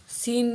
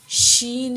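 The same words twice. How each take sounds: First: "سین" with s in place of sh; mistaken seen. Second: "شین" with a full sh sound; clear sheen. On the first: Teacher shows the mistake to avoid, "سین" with s. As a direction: say "سین" with a plain s at the start. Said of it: "سین نہیں پڑھنا". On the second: Teacher corrects learners' reading, "شین" with distinct sh. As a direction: say "شین" with sh at the start. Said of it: "شین ہی پڑھنا ہے اس کو". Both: Shown as a demonstration.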